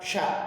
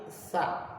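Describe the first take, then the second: First: The consonant is a hushing sh sound. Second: The consonant is lisped with tongue between teeth. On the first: The speaker calls it wrong. "bukan sya" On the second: The speaker calls it right. "tapi sa"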